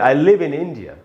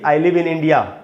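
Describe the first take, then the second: First: The final vowel is a short, weak 'uh'. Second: The final vowel is a long, open 'aa'. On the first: The speaker calls it right. "तो उसका उच्चारण अ होता है, आ नहीं होता ... इस प्रकार से" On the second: The speaker calls it wrong. "न कि ... ऐसे बोलना ठीक नहीं है"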